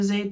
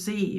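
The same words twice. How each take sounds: First: The letter is said the British way, 'zed'. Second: The letter is said the American way, 'zee'.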